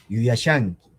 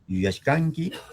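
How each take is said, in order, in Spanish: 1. El sufijo se dice como sha, sin k. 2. El sufijo se dice como shka, con k. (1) "en mi variedad" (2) "los hablantes de la variedad chanca lo leerán"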